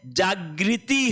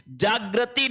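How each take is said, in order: First: जागृति said slowly as "jag-ri-ti"; slow, clear ri in the middle of जागृति; correct pronunciation model. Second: जागृति said "jag-ra-ti"; wrong pronunciation demo. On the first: Teacher correcting for students, जागृति slowly as "jagriti". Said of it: "जागृति होता है". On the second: Teacher rejecting the wrong word, जागृति as "jagrati". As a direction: put ra in the middle of जागृति. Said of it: "जागृति नहीं होता है". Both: Shown as a demonstration.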